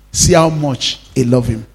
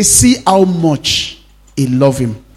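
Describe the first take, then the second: First: Said in the usual way. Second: Slow, marvelling quote; slow wonder. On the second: Acted. Pastor voicing the onlookers at the tomb, slow wonder. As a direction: savour how much. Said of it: "they say".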